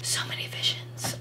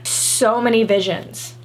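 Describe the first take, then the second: First: Hushed, voiceless whisper. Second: Said in the usual way. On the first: Pretend. Vlogger repeats her excitement over outfit ideas, whispered. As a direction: drop right down into a secretive whisper.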